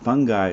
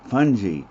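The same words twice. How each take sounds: First: The word sounds like 'fun guy'. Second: The word does not sound like 'fun guy'. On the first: The speaker calls it wrong. "Fungi is somebody you invite to a party" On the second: The speaker calls it right. "the way we really want to say that"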